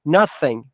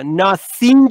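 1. مصوت اول کوتاهه. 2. مصوت اول بلنده. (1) "nothing یه کوتاه" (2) "nothing نیست"

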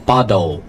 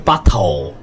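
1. 中间的 t 像 d 一样软化。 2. 中间的 t 是清脆、清晰的 t。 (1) "这里有两个浊化，一个是bottle" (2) "不是bottle"

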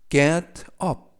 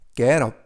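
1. 두 단어는 따로 발음합니다. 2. 두 단어는 부드럽게 이어서 발음합니다.

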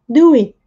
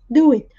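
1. A ênfase cai na palavra do. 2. A ênfase cai na palavra do.

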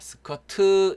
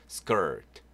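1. 마지막 t 뒤에 'eu' 모음이 더 붙어요. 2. 마지막 t는 가볍게 나고, 모음이 더 붙지 않아요. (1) "스커트 이렇게 으 발음 절대 넣으시면 안 돼요" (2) "스커트 이렇게 살짝"

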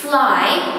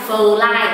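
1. Âm đầu là f kiểu tiếng Anh, có thổi hơi ra. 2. Âm đầu giống ph trong tiếng Việt. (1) "Ví dụ cô từ fly" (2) "chứ mình không nói là fly"

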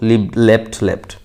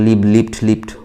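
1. অতীত রূপগুলো 'e' স্বরধ্বনি দিয়ে উচ্চারণ করা হয়। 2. অতীত রূপগুলো 'i' স্বরধ্বনি দিয়ে উচ্চারণ করা হয়। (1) "নো, লিভ লেফট লেফট" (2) "যেন এইভাবে উচ্চারণ করবেন না প্লিজ"

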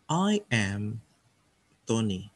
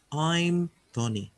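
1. I dan am diucapkan sebagai dua kata penuh. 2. I dan am digabung menjadi satu suku kata.

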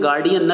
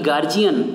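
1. 'gar' के बाद का व्यंजन 'd' ध्वनि है। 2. 'gar' के बाद का व्यंजन 'j' ध्वनि है। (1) "इसको कहते हैं गार्डियन" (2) "न कि गार्जियन"

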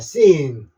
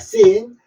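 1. 예사 's', 모음을 길게 끕니다. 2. 세고 힘 있는 된 's', 모음은 짧게 냅니다. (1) "시인이라고 길게 발음하시면 됩니다" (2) "씬 쌍시읒으로 발음해도 됩니다"

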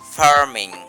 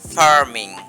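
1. কনসোনেন্টের আগে r টি উচ্চারিত হয়। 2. কনসোনেন্টের আগে r টি উচ্চারিত হয়।

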